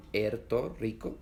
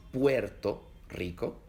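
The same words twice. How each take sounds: First: Puerto split into pu-er, vowels kept apart; wrong Puerto Rico. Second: Puerto with ue glided into one syllable, said slowly; correct Puerto Rico. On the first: Teacher shows the wrong way, vowels split apart. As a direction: say Puerto Rico breaking the ue into two syllables. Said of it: "que no es". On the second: Teacher models the right way, slowly and clearly. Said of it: "es Puerto Rico". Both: Shown as a demonstration.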